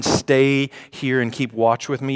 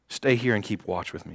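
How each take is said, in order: First: "Stay" lifted, line read as a question; leaning on "Stay here"; stress on stay. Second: Quiet repeat. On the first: Preacher asks the congregation about the line, stressing "Stay". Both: Shown as a demonstration. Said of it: "You see that last line".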